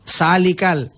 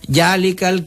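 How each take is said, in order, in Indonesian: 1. Kata ini diawali dengan bunyi s. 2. Kata ini diawali dengan bunyi j. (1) "punda bugis sa" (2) "Makassar itu biasa tuh nada na cancang jalikal kitabu padahal za"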